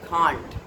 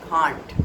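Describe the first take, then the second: First: It is said in a British accent. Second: The same.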